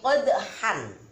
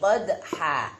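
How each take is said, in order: First: The word ends with a short vowel and n. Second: The word ends with a long a vowel. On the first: This is the written form with the double vowel mark. "Secara tertulis di sini qadhan" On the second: This is how it is read when stopping at the verse end. "dibaca panjang dua harokat atau satu alif"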